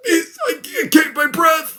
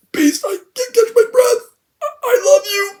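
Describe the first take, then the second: First: Much higher, fake-weepy, straining; mock dying voice. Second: Very high, squeaky fake sobbing; exaggerated mock dying. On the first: Raven dying in Beast's arms, mock weepy gasp. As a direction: parody a bad death scene. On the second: Raven dying in Beast's arms, hammed-up squeaky sob. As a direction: overplay the death line to ridicule it.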